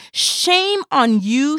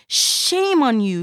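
First: Slow, loud, high scolding. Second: Yelled scolding. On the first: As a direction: drag out the shame like a public rebuke. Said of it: "she said". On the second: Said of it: "she yelled". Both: Acted.

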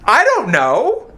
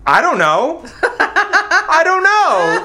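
First: Slow, stretched shrug; slow baffled I don't know; slow drawn out. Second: Laughing helplessly, high; laughing admission. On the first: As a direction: drag it out, unsure. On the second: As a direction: giggle it out. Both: Real, not acted. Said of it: "this is my answer".

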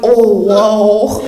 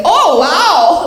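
First: Low, drawn-out dying "oh, whoa"; dying grandma. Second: High, loud, delighted "oh, wow"; grandma's admiring catchphrase. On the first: Grandma dying beside granddaughter, low heavy awe. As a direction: imitate grandma's deathbed exclamation, pitched down. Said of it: "to hear her dying going". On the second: Grandma admiring granddaughter ready for prom, gushing. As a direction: imitate grandma gushing, pitched up. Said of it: "she loves that phrase". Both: Retold or imitated.

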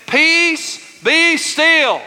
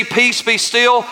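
First: High, held-out preacher's command. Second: Said in the usual way. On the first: Acted. Preacher leading congregation as Jesus calming the sea, commanding. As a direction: rebuke the storm, long and high. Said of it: "Y'all say it with me".

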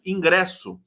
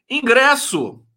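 First: Said in the usual way. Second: High, loud punch on Ingresso; loud exclamation. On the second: Real, not acted. Host reading chat greetings, loudly exclaiming the word Ingresso. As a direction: exclaim Ingresso, pitched up with a falling end.

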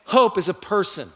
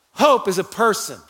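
Both takes have the same delivery.

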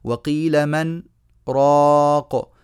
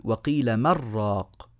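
First: "من" and "راق" kept apart, "راق" held long; sakt after مَن. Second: "من راق" run together as "مر راق"; no pause, "من" assimilated into "راق"; merged without sakt. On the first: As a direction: clear "من", breathless pause, then long loud "راق". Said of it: "نصلها نقول". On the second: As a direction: drop the n of "من" into a doubled r on "راق". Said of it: "ولا نقول". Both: Shown as a demonstration.

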